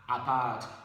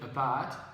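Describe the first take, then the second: First: The first vowel is a full, clear vowel. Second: The first vowel is a short, weak vowel. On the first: The speaker calls it wrong. "you don't say a, apart" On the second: The speaker calls it right. "you say apart"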